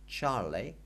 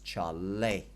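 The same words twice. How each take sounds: First: The stress is on the first syllable. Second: The stress is on the last syllable. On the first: The speaker calls it wrong. "it is not" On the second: The speaker calls it right. "the stress with that accent is on the end"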